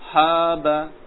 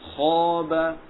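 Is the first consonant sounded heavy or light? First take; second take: light; heavy. First: The first consonant is light and thin. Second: The first consonant is heavy and thick. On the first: The speaker calls it wrong. "Salah ya, kurang tebal" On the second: The speaker calls it right. "Yang benar harus tebal"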